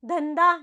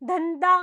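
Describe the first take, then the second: Both takes have the same delivery.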